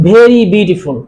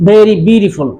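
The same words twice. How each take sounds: The two takes are said the same way.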